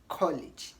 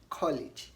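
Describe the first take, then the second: Both takes have the same delivery.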